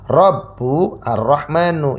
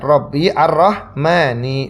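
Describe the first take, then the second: First: Both words end with a u vowel. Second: Both words end with an i vowel. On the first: "ba-nya ini di dhamma Ar-Rabbu berarti Rahmani juga berubah menjadi Ar-Rahman" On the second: "Robbi berarti Ar-Rahmani mengikuti"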